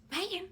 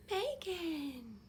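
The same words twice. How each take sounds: First: Higher, louder yell of the name in panic; panicked shout. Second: Calm call. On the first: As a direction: shout the name as if fear takes over. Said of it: "my fear was if I just". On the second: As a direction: call her name out, held steady and not panicked. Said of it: "Because I could not panic". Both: Retold or imitated.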